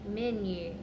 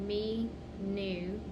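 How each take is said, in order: First: The first vowel is short, like men. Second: The first vowel is long, like me. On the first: The speaker calls it right. "Now it's going to be closed on that first syllable" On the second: The speaker calls it wrong. "The first one is me, so that is an open syllable"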